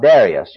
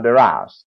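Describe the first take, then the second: First: "Darius" as DAIR-ee-us; own accustomed pronunciation. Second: "Darius" as duh-RYE-us; listeners' pronunciation. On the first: Preacher showing his school-years pronunciation, accustomed way. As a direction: stress the first syllable of "Darius": DAIR-ee-us. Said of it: "the way I was accustomed to it". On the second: Preacher showing how his congregation says it, their way. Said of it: "You people speak of Darius". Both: Shown as a demonstration.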